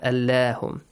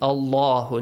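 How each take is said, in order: First: The l sound is light and thin. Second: The l sound is heavy and thick. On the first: The speaker calls it wrong. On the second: The speaker calls it right. "it should be pronounced heavily"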